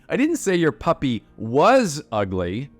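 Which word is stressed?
say. The word 'say' carries the main stress. The speaker only avoided saying it aloud. "look at it. Obviously, it is"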